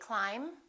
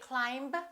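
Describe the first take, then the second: First: The final B is silent. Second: The final B is sounded. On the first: The speaker calls it right. "the silent B" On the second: The speaker calls it wrong. "We don't say climb"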